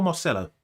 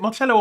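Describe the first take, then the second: First: Marcelo said with an "s": Mar-SEL-lo; "s" pronunciation. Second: Marcello said with a "ch": Mar-CHEL-lo; "ch" pronunciation. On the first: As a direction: say the c in Marcelo as a soft "s". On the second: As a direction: say the c in Marcello as "ch", Italian-style. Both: Shown as a demonstration. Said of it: "Is it Marcello or Marcelo".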